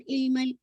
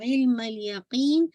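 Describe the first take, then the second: First: इल्मल with a plain vowel start, no throat sound; ain left out. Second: इल्मल यकीन opening on a squeezed throat ain; clear throaty ain. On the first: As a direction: say इल्मल lightly, skipping the ain. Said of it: "not इल्मल". (इल्मल बिना आइन के, सादी इ से) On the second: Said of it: "आइन निकालेगा". (इल्मल यकीन में हलक से आइन, खींचकर) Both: Shown as a demonstration.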